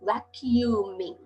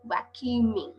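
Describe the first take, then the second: First: "Vacuuming" stretched out slowly, each syllable va-cu-u-ming spoken apart; slow syllable drill. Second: Said in the usual way. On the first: Shown as a demonstration. Teacher slows "Vacuuming" down for Thai pupils, syllable by syllable. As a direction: break "Vacuuming" into slow separate syllables for the class. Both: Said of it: "เร็วๆเป็น vacuuming".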